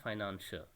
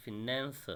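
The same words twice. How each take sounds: First: Financier as fy-NAN-sher, long I first; wrong pronunciation. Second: Finance said slowly as fi-NAN-ser, short I; corrected pronunciation. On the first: Teacher showing students the reading to avoid, financier starting with 'fy'. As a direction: open financier with 'fy' and soften to 'sh'. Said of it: "it is not financier". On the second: Teacher correcting students, finance slowly said as fi-NAN-ser. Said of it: "it is finance". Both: Shown as a demonstration.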